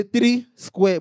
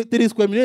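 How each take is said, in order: First: "three square" drawn out slowly, word by word; deliberate THREE. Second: Said in the usual way. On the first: Shown as a demonstration. Preacher correcting the common saying, slow deliberate "three square". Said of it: "Say three square". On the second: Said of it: "when we say three square meal".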